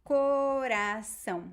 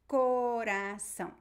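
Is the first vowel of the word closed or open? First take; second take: closed; closed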